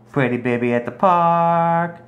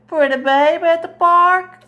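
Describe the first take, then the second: First: Said in the usual way. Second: Very high, louder sing-song question. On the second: Real, not acted. Mom cooing to her daughter over a photo in high baby talk.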